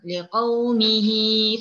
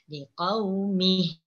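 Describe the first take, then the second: First: The final vowel is drawn out into the next word. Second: The word stops short on the final h. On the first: The reciter continues without stopping. "Kalau kita nih sambung... mihi panjang" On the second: The reciter pauses and stops here. "Kalau kita wakaf pada liqaumih... cuma dua harakat saja. Ah, jangan dipanjang"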